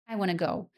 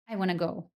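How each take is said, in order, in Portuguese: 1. Want e to se juntam em um único som. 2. Want e to se juntam em um único som.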